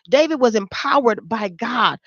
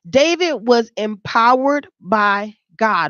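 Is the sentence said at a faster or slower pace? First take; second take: faster; slower. First: It is said at a normal speaking pace. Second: It is said at a slower, deliberate pace.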